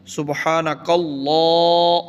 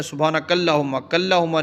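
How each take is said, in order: First: Chanted, Allah with a thick lam, slowly intoned and drawn up; chanted heavy lam. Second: اللہم said quickly with a thin lam; mistaken recitation. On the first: Chanted, teacher intones the correct way after the mistake. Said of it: "موٹا کرنا ہے". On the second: Teacher mimics the wrong reading students use. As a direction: rush through اللہم lightly, the common mistake. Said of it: "ہم کیا پڑھتے ہیں". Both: Shown as a demonstration.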